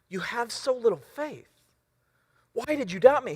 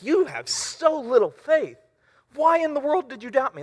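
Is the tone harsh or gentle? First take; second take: gentle; harsh. First: It is said gently, like patient teaching. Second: It is said harshly, like scolding yelling.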